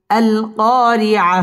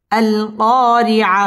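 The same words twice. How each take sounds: The two takes are said the same way.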